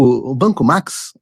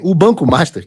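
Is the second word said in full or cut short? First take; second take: cut short; in full. First: The second word is cut short to 'Max'. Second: The second word is said in full, 'Master'. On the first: The speaker calls it wrong. "Ele não consegue falar Master. Ele fala assim" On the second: The speaker calls it right. "que não é o Banco Max"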